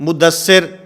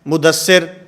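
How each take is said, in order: Both takes have the same delivery.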